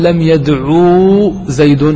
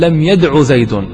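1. ينتهي الفعل بضمة طويلة. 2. ينتهي الفعل بضمة قصيرة. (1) "لا تقول لم يدعو زيد هكذا واو" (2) "تأتي بالضمة ولا تنطق بالواو"

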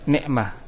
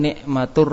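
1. Kata itu diakhiri dengan bunyi h. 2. Bunyi t di akhir tersambung dengan r setelahnya. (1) "kalau kita waqaf semua kita baca" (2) "nikmatun kita baca nikmatur kalau di idgham"

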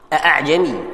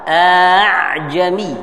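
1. Hamzah kedua diucapkan penuh sebagai hentian. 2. Hamzah kedua dilunakkan, antara hamzah dan vokal. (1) "Ada yang baca tahqiq" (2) "تسهيل"

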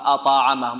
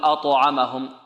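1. يميل الصدى بعد التاء إلى الفتحة. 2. يميل الصدى بعد التاء إلى الضمة. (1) "نميلها الفتح" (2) "نميلها الضم"

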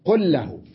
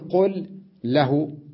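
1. يُدغم صوتا L ويصيران L مشددة واحدة. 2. يُنطق صوتا L منفصلين. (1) "نعم أضغمت اللام من قل باللام من له" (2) "لا أقول قل له"

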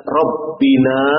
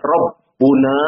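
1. Vokal setelah 'rabb' itu i. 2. Vokal setelah 'rabb' itu u. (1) "tidak dibaca Rabbina" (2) "Tidak dibaca Rabbuna"

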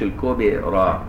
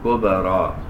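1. القلقلة على الباء تميل إلى الكسر. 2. القلقلة على الباء تميل إلى الفتح. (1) "ما تقولش الكبرى فانك خليت القلقلة مائلة للكسر" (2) "كبرى تخليها مائلة للفتح"

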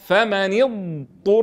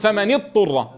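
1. تُمدّ الضاد ثم تأتي طاءٌ مستقلة بعدها. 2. الضاد تُدغم في الطاء فتُنطق طاءً مشددة. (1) "نعطي الضاد حقا من الاستطالة ثم ننطق طاء مضمومة" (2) "فيدغم الضاد في الطاء وينطق طاء مشددة وهذا خلل"

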